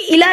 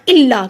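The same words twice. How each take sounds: First: इला with a light single ल; wrong single L. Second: इल्ला with ल held before the vowel; इल्ला with a geminate ल; doubled L. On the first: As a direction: skip the doubling of ल in इला. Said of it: "इला नहीं पढ़ना". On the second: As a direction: lean firmly on the double ल of इल्ला. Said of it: "लाम पे शद है". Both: Shown as a demonstration.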